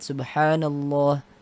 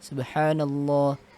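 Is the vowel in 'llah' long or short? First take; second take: long; long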